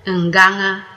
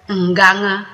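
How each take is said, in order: Both takes have the same delivery.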